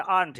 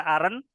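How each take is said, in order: First: AREN'T as one syllable, "arnt"; one-syllable pronunciation. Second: AREN'T split into two syllables, "a-ren", rising at the end; two-syllable misreading. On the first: Teacher correcting the reading, AREN'T said as one syllable "arnt". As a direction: say "aren't" in a single beat, ending in -nt. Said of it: "Jadi satu suku kata saja". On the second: Teacher showing students the misreading, AREN'T as two syllables "a-ren". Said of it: "bukan dibaca ... satu suku kata saja". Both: Shown as a demonstration.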